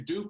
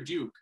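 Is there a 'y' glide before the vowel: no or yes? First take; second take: no; yes. First: The vowel is a plain 'oo' without glide. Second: The vowel has a 'y' glide, 'dyook'. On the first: "rhyme with pook" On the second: "or puke"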